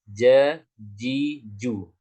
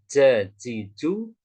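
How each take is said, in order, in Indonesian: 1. Sedikit udara keluar; tengah lidah menyentuh. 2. Banyak udara keluar; ujung lidah menyentuh. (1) "tapi ja-ji-ju ... tidak akan banyak udara yang keluar" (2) "Bukan ja-ji-ju ... yang banyak udara keluar, karena dia yang menyentuh adalah bagian depan"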